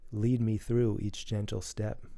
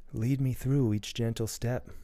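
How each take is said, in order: Both takes have the same delivery.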